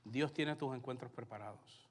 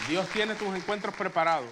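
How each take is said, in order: First: Said in the usual way. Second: Full-voice emphatic preaching, stress on tiene; the first time is shouted out; loud preached declaration. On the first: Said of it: "repeated line, said plainly". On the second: Shown as a demonstration. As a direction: proclaim it loud to the whole room. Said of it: "repeated line, preached loud".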